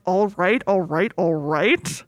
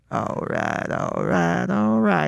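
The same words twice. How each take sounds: First: Slow drawn-out all right all right; a lazy stretched Texan drawl, mock lineup suspect; imitating McConaughey's catchphrase in a police lineup. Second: Much lower, deep, slow all right all right; McConaughey himself in the lineup nailing his catchphrase; the real McConaughey. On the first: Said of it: "people being like". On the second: Retold or imitated. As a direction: drop deep into the real drawl. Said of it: "he walks up and he's like".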